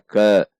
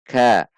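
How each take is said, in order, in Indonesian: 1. Vokalnya adalah bunyi e yang lemah. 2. Vokalnya adalah bunyi a yang jelas. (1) "Tidak dibaca ke" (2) "Namun ka"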